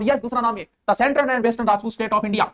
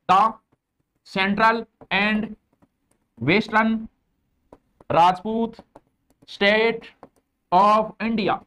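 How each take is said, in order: First: Said in the usual way. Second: Each word set apart with long pauses, slow; slow word-by-word dictation. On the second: Shown as a demonstration. Teacher dictating to students, word by word, slowly. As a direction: spell it out word by word so students can copy. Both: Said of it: "ऐसे English बोलने में स्वाद आता है".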